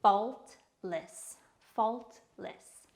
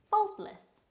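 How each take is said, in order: First: Faultless split into fault, less with a gap; syllable-by-syllable pronunciation. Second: Said in the usual way. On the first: Shown as a demonstration. Teacher showing learners how to pronounce faultless, syllable by syllable. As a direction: say Faultless as two separate, measured syllables. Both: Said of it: "Pronounced like this".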